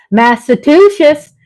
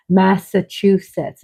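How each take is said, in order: First: Massachusetts as mass-a-TOO-shus; wrong pronunciation. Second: Massachusetts as mass-a-CHOO-sets; correct pronunciation. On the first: Host owning up to her lifelong mistake, mispronunciation. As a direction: end "Massachusetts" in "shus" instead of "sets". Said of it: "but I've been saying". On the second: Host showing the correct way she just learned, careful pronunciation. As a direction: finish "Massachusetts" on a clear "sets". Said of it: "is how you pronounce it". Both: Shown as a demonstration.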